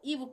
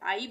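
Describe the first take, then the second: First: The vowel is a short 'i' sound. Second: The vowel is a long 'eye' diphthong. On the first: The speaker calls it right. "हम यहाँ पे इसको इव पढ़ेंगे" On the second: The speaker calls it wrong. "यहाँ पे हमने आइव नहीं पढ़ेंगे इसको"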